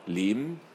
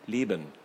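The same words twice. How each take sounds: First: The b sound is swallowed and barely heard. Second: The b sound is clearly pronounced. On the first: "statt Leben" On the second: "ich habe einfach nur das B gesprochen"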